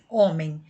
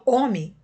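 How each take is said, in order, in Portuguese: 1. A vogal final sai pelo nariz. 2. A vogal final não sai mais pelo nariz. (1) "fazendo o som sair pelo nariz" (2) "o som não sai mais pelo nariz"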